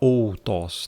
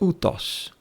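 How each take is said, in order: First: It begins with an 'o-u' glide. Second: It begins with a plain 'u' sound. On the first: The speaker calls it wrong. "Você não vai falar outos" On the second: The speaker calls it right. "Temos um ditongo aqui. Então é utos"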